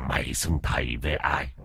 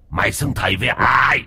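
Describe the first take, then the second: First: Low, quiet growling question; low menacing demand. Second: Angry shout. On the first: Dog ghost interrogates the cowering master, low and menacing. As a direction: press him with quiet menace. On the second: Dog ghost shouts the demand at the master. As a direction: bark the question at him. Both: Acted.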